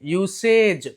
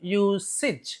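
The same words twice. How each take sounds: First: The last syllable sounds like ej. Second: The last syllable sounds like ij. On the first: The speaker calls it wrong. "ఇలా అనకూడదు... కాదు" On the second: The speaker calls it right. "ఇజ్ అని చదవాలి"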